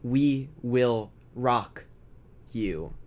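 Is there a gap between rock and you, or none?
gap. Rock and you are separated by a gap. The speaker calls it wrong. "We don't say"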